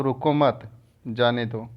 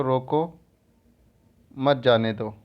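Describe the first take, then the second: First: रुको मत as one unit, then जाने दो; group रुको with मत, break before जाने दो; pause after मत. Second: रोको alone, long pause, then मत जाने दो; pause after रोको. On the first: Teacher explaining where the comma moves, break between रुको मत and जाने दो. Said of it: "मत के बाद कामा लगा है". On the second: Teacher repeating the comma example, clear break between रोको and मत जाने दो. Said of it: "रोको पहले कामा लग गया". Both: Shown as a demonstration.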